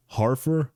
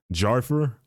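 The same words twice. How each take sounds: First: "Harfer" with a breathed H for the J, as a higher-pitched question; H pronunciation. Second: "Jarfer" with a hard English J, as a higher-pitched question; J pronunciation. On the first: Host weighing two readings of a title, H pronunciation. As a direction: try "Harfer" as HAR-fer, unsure. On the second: Host weighing two readings of a title, J pronunciation. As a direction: try "Jarfer" as JAR-fer, unsure. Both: Shown as a demonstration. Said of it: "it's pronounced Jarfer or something".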